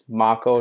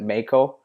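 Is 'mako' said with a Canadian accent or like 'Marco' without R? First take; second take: Marco-like; Canadian accent. First: The word sounds like 'Marco' without the r. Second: The word is said with a Canadian accent. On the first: The speaker calls it right. "but it's mako, ... like I'm saying Marco Polo, but without the R" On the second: The speaker calls it wrong. "I would always pronounce it mako with a Canadian accent"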